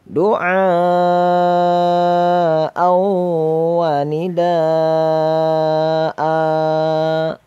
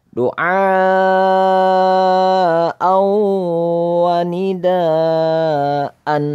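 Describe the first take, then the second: The two takes are said the same way.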